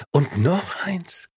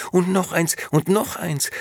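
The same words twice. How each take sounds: First: High, slowed emphatic finish; slow drawn out. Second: High and loud, piling it on; eager excited. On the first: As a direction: stretch the final words out slowly. Last item, slowed. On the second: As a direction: keep tossing with gleeful eagerness. Tossing out more clothes. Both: Acted.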